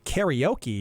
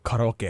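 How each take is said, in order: First: It is pronounced with an English-style sound pattern. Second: It is pronounced with a Japanese-style sound pattern. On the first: "I wouldn't say karaoke" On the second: "I would say karaoke"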